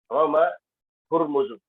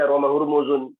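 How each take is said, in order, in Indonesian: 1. Frasa ini berakhir pada vokal tanpa n. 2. Frasa ini berakhir dengan bunyi n yang ditambahkan.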